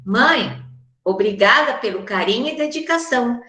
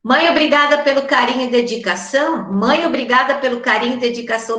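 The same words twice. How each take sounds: First: "Mãe" then a clear little pause; "Mãe" set apart by a short strategic pause; pause after Mãe. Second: Fast, no pause after "Mãe"; "Mãe" glued to the next words, no break; run together without pause. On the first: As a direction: call "Mãe", stop briefly, then go on. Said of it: "o mãe tem que ter uma paradinha". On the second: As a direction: rush "Mãe, obrigada" as one breath. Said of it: "ficaria tão esquisito". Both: Shown as a demonstration.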